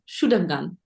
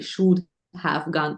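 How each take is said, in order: First: Have is shortened and joined to should. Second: Have is said fully as a separate word. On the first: The speaker calls it right. "do I say it shorter? ... you can say it shorter" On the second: The speaker calls it wrong. "usually people do not say should have gone"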